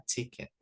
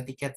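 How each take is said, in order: First: Ticket said the English way, TIK-it; English pronunciation. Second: Said in the usual way. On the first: Shown as a demonstration. Teacher contrasting English ticket with Indonesian tiket, English pronunciation. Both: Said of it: "kalau kita bacanya tuh nginggris".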